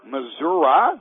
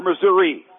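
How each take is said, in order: First: Missouri ending in an "uh" sound; local pronunciation. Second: Said in the usual way. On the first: Shown as a demonstration. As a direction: say Missouri as "Mizzur-uh", questioningly. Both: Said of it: "make sure I pronounce this correctly".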